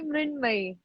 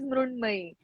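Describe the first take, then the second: First: Said with 'Mrin' and ending in 'may'. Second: Said with 'Mrun' and ending in 'may'. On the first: "Hindi speaking people call me Mrinmay" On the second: "In Marathi, it is Mrunmay"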